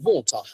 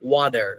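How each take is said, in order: First: The final r sound is dropped. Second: The final r sound is pronounced. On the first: "ব্রিটিশরা যখন ওয়াটার বলে ওরা ওয়াটারের লাস্টের আরটাকে কেটে দেয়, ওরা টোটালি সাইলেন্ট করে দেয়।" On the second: "if you want to follow the Brit, uh, I mean American, then you must say"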